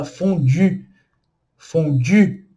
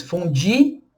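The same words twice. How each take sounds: First: Fondue with French u, lips round; correct French fondue. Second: Fondue said as fondi, Portuguese style; the common Brazilian mistake with fondue; wrong Portuguese fondue. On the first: Teacher shows the right way to say fondue. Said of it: "Cuidado pra não falar fondue". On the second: Teacher imitates the usual Portuguese mispronunciation. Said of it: "Cuidado pra não falar fondue, igual muitas pessoas falam em português". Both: Shown as a demonstration.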